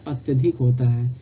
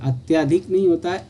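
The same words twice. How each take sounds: First: अत्यधिक said with a short a, "atyadhik"; teacher giving the correct अत्यधिक with a short a; correct form. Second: अत्याधिक said with a long aa, "atyaadhik"; teacher voicing the wrong अत्याधिक with a long aa; wrong form shown. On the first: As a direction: keep the middle of अत्यधिक short, atya-dhik. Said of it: "इसका अत्यधिक होता है". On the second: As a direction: stretch the middle of अत्याधिक to atyaa-dhik as the mistake. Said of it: "अत्याधिक आपका त्रुटिपूर्ण है". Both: Shown as a demonstration.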